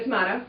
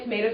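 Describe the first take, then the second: First: "tomato" said as to-MAH-to; broad A pronunciation. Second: "tomato" said as to-MAY-to; long A pronunciation. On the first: Joking that either pronunciation works, broad A pronunciation. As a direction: say "tomato" with an AH in the middle. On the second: Joking that either pronunciation works, long A pronunciation. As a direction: say "tomato" with an AY in the middle. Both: Shown as a demonstration. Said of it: "whichever way you say it".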